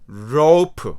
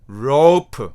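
The two takes are said the same way.

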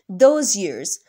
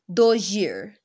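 First: The z of those is kept clear and separate. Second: The z of those blends into the following y.

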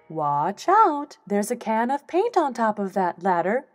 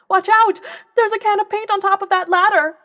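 First: It is said slowly. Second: It is said fast.

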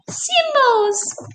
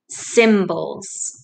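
First: The word is said in a high squeaky voice. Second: The word is said in a normal speaking voice. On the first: "Can you say it in a mouse voice?" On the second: "I want you to say the word symbols with me"

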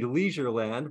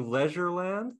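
First: It is said with a North American pronunciation. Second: It is said with a British pronunciation. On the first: The speaker calls it wrong. "North Americans will say" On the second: The speaker calls it right. "but it's probably"

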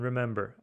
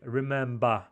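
First: It is said with an American accent. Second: It is said with an Australian accent. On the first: "а Джимми Фэллон «remember»" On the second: "она говорит «remember»"

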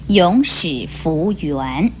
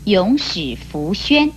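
First: The last syllable is pronounced yuan. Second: The last syllable is pronounced xuan. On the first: The speaker calls it wrong. "不可以念成永始弗圆" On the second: The speaker calls it right. "讲的永始弗宣"

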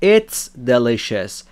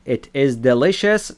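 First: It is said as one contracted word. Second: It is said as two separate full words. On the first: This is the informal, casual form. "تبدیل میشه به it's delicious" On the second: This is the formal, written form. "it is delicious تبدیل میشه به"

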